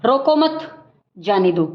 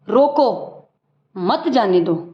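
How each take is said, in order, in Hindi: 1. 'mat' के ठीक बाद विराम है। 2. 'roko' के ठीक बाद विराम है। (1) "दूसरे में शब्द वो ही हैं, फ़र्क है तो विराम चिन्हों का है" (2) "पहले मान लो रोको है, यहाँ ये चिन्ह है"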